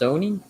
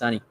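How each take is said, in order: First: The first vowel sounds like 'so'. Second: The first vowel sounds like 'sun'. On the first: "supposed to be pronounced Sony" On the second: "I thought that's Sunny"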